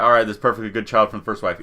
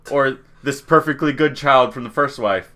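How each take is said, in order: First: Fast, offhand retold verdict; quick dismissive decision. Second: Said in the usual way. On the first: Villagers settling on the heir, quick dismissive decision. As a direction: rattle it off, case closed.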